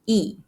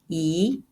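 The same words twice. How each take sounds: First: It is said in the falling fourth tone. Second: It is said in the rising second tone. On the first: The next word has a first, second or third tone. "一 is reading the fourth tone" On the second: The next word has a fourth tone. "一 is reading the second tone"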